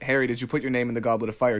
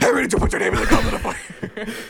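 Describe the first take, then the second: First: It is said calmly and quietly. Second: It is said angrily and loudly.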